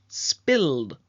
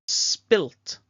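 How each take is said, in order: First: The word ends with a d sound. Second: The word ends with a t sound. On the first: The speaker calls it right. "Careful to make sure E D" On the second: The speaker calls it wrong. "not T"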